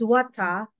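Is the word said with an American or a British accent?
British. The word is said with a British accent. "for British"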